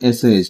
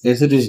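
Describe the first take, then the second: First: No t sound comes before the final -ist. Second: A t sound comes before the final -ist. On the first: The speaker calls it right. "এসেইস্ট বলবো এটাকে" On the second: The speaker calls it wrong. "এসেটিস্ট না"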